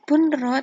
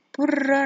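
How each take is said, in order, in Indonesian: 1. Bunyi n terucap dengan jelas sebelum r. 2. Bunyi n menyatu penuh ke dalam r yang mengikutinya. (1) "Bukan bunra" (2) "tapi burra langsung masuk"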